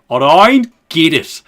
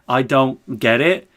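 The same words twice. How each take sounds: First: It is said in an Australian accent. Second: It is said in the speaker's normal accent. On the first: "It always has to be Aussied up" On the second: "Whenever I want to say I don't get it"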